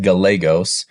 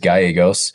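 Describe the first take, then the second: First: The double L is sounded as a clear L. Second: The double L is sounded like a Y. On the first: This is the family's own way of saying the name. "The L's not silent in my the way that me and my family pronounce our last name" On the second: This is the standard Spanish way of saying the name. "I know the proper Spanish pronunciation is Gallegos"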